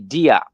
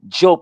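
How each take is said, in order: First: The name begins with a 'dee' sound. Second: The name begins with a 'j' sound. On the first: The speaker calls it wrong. "many people say Diop" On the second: The speaker calls it right. "Job is how the name would be pronounced"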